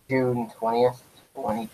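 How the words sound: It is said in a Darth Vader voice.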